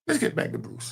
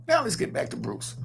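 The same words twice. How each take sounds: First: Breathy, voiceless aside back to topic; a hushed, unvoiced host's transition; whispered segue. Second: Shouted toss back to the topic; a shouted host's transition; called-out segue. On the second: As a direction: call out the segue to move on. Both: Real, not acted. Steering the show back on topic.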